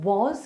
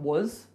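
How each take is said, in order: First: The word has a full, clear vowel. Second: The word has a weak, reduced vowel. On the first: "the word was" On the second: "can become was, was, W U Z"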